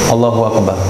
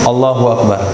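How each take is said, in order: Both takes have the same delivery.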